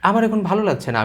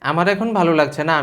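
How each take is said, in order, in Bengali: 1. প্রমিত বাংলা স্বরভঙ্গিতে বলা হয়েছে। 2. নোয়াখালী আঞ্চলিক স্বরভঙ্গিতে বলা হয়েছে। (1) "প্রমিত স্বরভঙ্গিতে বলতেন" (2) "আপনার স্বরভঙ্গিটা কিন্তু নোয়াখালীরা"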